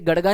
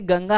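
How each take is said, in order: First: The middle consonant is a flapped d sound. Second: The middle consonant is a nasal ng sound. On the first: The speaker calls it wrong. "आप में से बहुत सारे इसको गड़गा बोलेंगे, ये गड़गा नहीं है" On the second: The speaker calls it right. "ये गंगा है"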